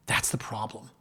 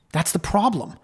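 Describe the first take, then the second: First: Hushed, breathy aside; whisper. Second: Said in the usual way. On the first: Retold or imitated. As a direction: lean in and whisper it like a secret. Lawyer's quoted warning, repeated twice.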